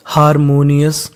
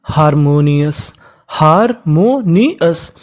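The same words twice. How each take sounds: First: Said in the usual way. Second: harmonious slowly split into four parts; teacher slowly breaking up harmonious; syllable by syllable. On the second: Shown as a demonstration. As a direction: sound out harmonious, pausing between each part. Teacher sounding out a word.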